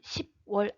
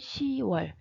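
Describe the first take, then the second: First: The first syllable ends in a p sound. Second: The first syllable ends in a vowel. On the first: The speaker calls it wrong. "십월 아닙니다" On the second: The speaker calls it right. "받침 없이"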